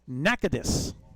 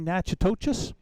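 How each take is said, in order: First: The name is said in its shorter local form. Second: The name is sounded out closely following its spelling. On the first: The speaker calls it right. "is how it's supposed to be pronounced" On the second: The speaker calls it wrong. "We've been saying"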